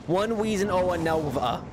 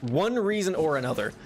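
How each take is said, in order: First: R's turned to W's in "reason"; mocking own slip. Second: Said in the usual way. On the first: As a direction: say "another" as "anovva", higher. Repeats own slip as baby talk.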